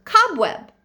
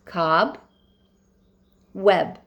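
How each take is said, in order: First: Said in the usual way. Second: "Cob, web" split by a long pause; syllable by syllable. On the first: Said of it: "What's the base word?". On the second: Shown as a demonstration. Teacher dictating spelling to pupils, "Cob, web" syllable by syllable. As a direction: sound out "Cob" and "web" as two separate pieces. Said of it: "work on that first syllable".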